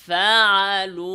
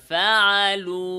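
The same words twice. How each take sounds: First: ফাআলু slow and loud with the final হ audible; correct pronunciation. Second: ফাআলু with the final হ dropped; wrong pronunciation. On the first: Teacher showing the correct form, ফাআলু with final হ sounded. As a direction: sound the ending হ of ফাআলু clearly. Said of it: "সঠিক উচ্চারণ". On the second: Teacher imitating a common mistake, ফাআলু without the হ. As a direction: clip off the হ at the end of ফাআলু. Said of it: "অনেকে উচ্চারণ এভাবে করে". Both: Shown as a demonstration.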